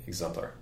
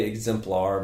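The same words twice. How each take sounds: First: Exemplar run together, ending reduced to "pler"; quick, reduced EXEMPLAR. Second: Exemplar said slowly with a full "plar"; careful EXEMPLAR. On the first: Guest shows the rushed way, Exemplar reduced to "pler". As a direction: toss off Exemplar quickly and softer. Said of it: "If I'm saying it really quick". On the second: Guest shows their usual way, Exemplar with full "plar". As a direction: give Exemplar its full last syllable. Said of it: "I think I say Exemplar most". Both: Shown as a demonstration.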